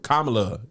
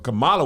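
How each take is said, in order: First: The stress is on the first syllable. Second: The stress is on the second syllable. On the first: It names the politician. The speaker calls it right. "Kamala is a politician" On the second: It names the wrestler. The speaker calls it wrong. "Kamala was a wrestler"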